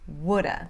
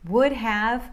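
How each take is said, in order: First: The words blend, 'have' reduced to 'uh'. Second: Both words are said fully and separately.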